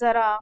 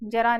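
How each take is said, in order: First: The word starts with a 'z' sound. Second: The word starts with a 'j' sound. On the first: The speaker calls it right. "नुक्ता युक्त आप शब्दों का प्रयोग करेंगे" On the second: The speaker calls it wrong. "जरा नहीं"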